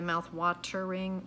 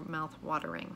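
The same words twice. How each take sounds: First: The T in watering is a clear T. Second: The T in watering sounds like a D. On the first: The speaker calls it wrong. "You don't hear the mouth watering" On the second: The speaker calls it right. "you hear mouth watering"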